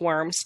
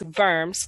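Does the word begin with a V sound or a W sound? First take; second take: W sound; V sound. First: The word begins with a W sound. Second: The word begins with a V sound. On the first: The speaker calls it wrong. "I know it looks like worms" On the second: The speaker calls it right. "the W is pronounced like a V"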